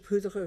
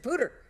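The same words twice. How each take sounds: First: The name is pronounced with French sounds. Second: The name is pronounced with local English sounds. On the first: This is how the speaker first assumed it was said. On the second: This is how people there actually say it.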